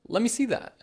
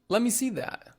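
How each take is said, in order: First: Let me is run together as lemme. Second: Let me is run together as lemme.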